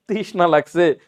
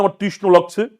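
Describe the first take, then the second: First: তৃষ্ণা with an open "aa" ending; correct-form demo. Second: তৃষ্ণ without the final "aa"; wrong-form demo. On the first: Teacher gives what we really say, তৃষ্ণা with final aa. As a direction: sound the full aa at the end of তৃষ্ণা. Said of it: "তৃষ্ণ বলি না তৃষ্ণা বলি". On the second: Teacher shows what nobody ever says, তৃষ্ণ lacking final aa. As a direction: end তৃষ্ণ on a short rounded vowel. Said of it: "কেউ ভুলো কোনদিন বলছি না". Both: Shown as a demonstration.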